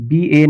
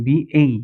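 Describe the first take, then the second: First: বিএ ending on a plain e vowel; the habitual বিএ, final vowel left as pure e; pronunciation without glide. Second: বিএই ending in an e-to-i diphthong; pronunciation with glide. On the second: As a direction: model বিএই as English "bee-ay". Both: Shown as a demonstration. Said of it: "বিএ না বলে বিএই".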